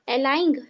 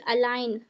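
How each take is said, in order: First: The word ends with a g sound. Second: The word ends without a g sound. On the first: The speaker calls it wrong. "अलाइंग कि अलाइन?" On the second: The speaker calls it right. "अलाइन पढ़ेंगे"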